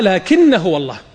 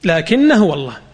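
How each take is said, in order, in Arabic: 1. الحركة في آخر الكلمة الأولى قصيرة. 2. الحركة في آخر الكلمة الأولى قصيرة.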